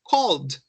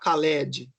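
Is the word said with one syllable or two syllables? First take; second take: one; two. First: The L runs straight into a final D. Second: An extra vowel is added before the final D. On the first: The speaker calls it right. "Olha como é fácil de eu grudar o sonzinho L do L com o D" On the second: The speaker calls it wrong. "Não precisa falar Khaled"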